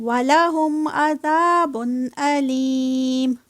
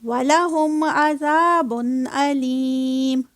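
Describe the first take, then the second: No difference in how they are said.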